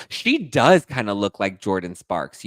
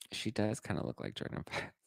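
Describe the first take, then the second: First: Said in the usual way. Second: Much softer, said to herself; muttered repeat. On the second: Real, not acted. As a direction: repeat it under your breath.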